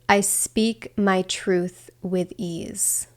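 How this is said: It is said from the body, grounded.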